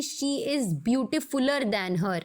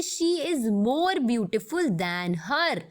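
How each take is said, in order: First: Somewhat slow read of the wrong form; teacher showing the wrong English form to avoid; wrong example. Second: Slow, careful correct sentence; teacher reading out the correct English example, slowly. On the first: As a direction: say the incorrect version as a warning. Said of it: "ये एकदम गलत English हो जाएगी". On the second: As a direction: read the right form slowly and clearly. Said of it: "ये एकदम गलत English". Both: Shown as a demonstration.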